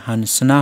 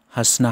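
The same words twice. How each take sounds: First: हंसना read as spelled, with a full n: hans-na; written form. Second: हंसना said as hasna, the n only a nasal vowel; spoken form. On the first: Teacher reading the written spelling to students, spelled-out pronunciation. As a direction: say हंसना letter by letter as it is written, n and all. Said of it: "लिखने में हंसना होता है". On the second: Teacher showing students the everyday spoken pronunciation. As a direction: say हंसना the way people speak it, no full n. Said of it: "लेकिन बोलने में". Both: Shown as a demonstration.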